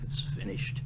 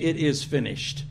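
First: It is whimpered in a weak, feeble voice. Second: It is cried out in a loud, strong voice. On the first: He died in weakness. The speaker calls it wrong. "He didn't whimper it like" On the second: He died in strength, not weakness. The speaker calls it right. "he cried with a loud voice"

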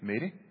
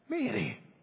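First: The name is said in a formal, neutral way. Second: The name is said in a frustrated way. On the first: "in a very formal way" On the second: "Or maybe frustration"

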